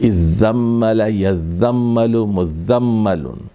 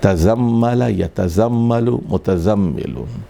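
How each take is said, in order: First: The t merges into a doubled z, as izzammal. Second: The t is kept, as tazammal.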